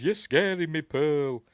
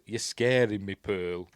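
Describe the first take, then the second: First: High, loud mock-frightened protest; acted alarm. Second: Said in the usual way. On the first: Projectionist protesting to an angry Pearl, acted loud alarm. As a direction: plead loudly in hammed-up alarm. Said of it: "He goes". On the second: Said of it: "he does say".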